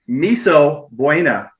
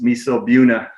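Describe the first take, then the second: First: Buena is said the usual way. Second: Buena is said as in Buena Vista.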